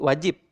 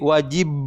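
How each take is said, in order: First: The final consonant is a voiceless, unreleased P. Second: The final consonant is a voiced, buzzing B. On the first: The speaker calls it right. "lebih mudahnya menjadi wajib" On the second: The speaker calls it wrong. "Sulit untuk memaksakan, harus menjadi bunyi B"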